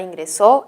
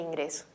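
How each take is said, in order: First: The stress is on the last syllable. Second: The stress is on the second-to-last syllable. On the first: It is the past-tense verb. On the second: It is a different word.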